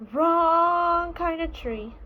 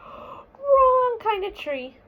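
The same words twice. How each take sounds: First: Little bear voice. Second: High, loud gasping little bear cry; gasping alarmed cry. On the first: Small bear repeats the complaint. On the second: Small bear gasps at the skunk-filled tree, high alarmed cry. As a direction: gasp then wail it out slowly like a startled cub. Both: Acted.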